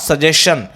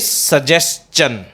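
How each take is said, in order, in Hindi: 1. अंत की आवाज़ shun जैसी है। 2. अंत की आवाज़ chun जैसी है। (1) "it is not सजेशन" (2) "it is सजेस्चन"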